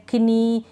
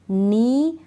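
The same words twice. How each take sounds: First: कनी with an audible K before the N; K wrongly sounded. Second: नी starting straight on the N, no K; silent K. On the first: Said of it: "इस तरह से नहीं". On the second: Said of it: "इसको pronounce नहीं कर रहे". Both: Shown as a demonstration.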